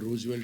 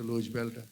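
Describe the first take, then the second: First: The name begins with an R sound. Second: The name begins with an L sound. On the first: The speaker calls it right. "రూజ్ బెల్ట్ అని పెట్టాను" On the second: The speaker calls it wrong. "అలా కూనీ చేసుకుని"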